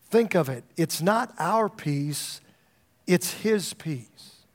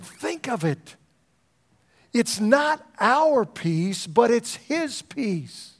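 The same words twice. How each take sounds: First: Slow, leaning on "our" and "his"; slow stress on our and his. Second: Higher and slow, pressing "our" and "his" hard; emphatic slow preaching. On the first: Preacher reading a quote to the church, slow stress on "our" and "his". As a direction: let "our" and "his" land, slowly. Quoting a fellow's words, first reading. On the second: Pastor repeating the quote to his church, raised and slow on "our" and "his". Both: Acted.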